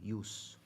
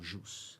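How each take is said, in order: First: The word begins with a soft glide sound. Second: The word begins with a consonant sound. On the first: This is the classical Latin form. The speaker calls it right. "No latim clássico, não existe a letra J. ... Deveria ser ius" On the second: This is the Church Latin form used in Brazil. The speaker calls it wrong. "a pronúncia da Igreja Católica, que adota a letra J"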